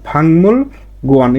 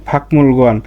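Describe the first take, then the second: First: The first syllable ends in an ng sound. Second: The first syllable ends in a k sound. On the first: The speaker calls it right. "এটা এর সঠিক উচ্চারণ" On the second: The speaker calls it wrong. "লিখবেন এভাবেই ফাকমুল গোয়ান"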